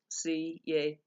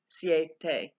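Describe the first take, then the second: First: The i and e fall in separate syllables. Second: The i and e glide into one syllable. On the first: The speaker calls it wrong. "that would be three syllables" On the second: The speaker calls it right. "because it's a diphthong, the I and the E are together"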